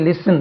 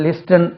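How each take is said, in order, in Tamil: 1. listen-ல் t உச்சரிக்கப்படுவதில்லை. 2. listen-ல் t உச்சரிக்கப்படுகிறது. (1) "அதே மாதிரி லிசன்" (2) "இது மாதிரி லிஸ்டன் அப்படி கிடையாது"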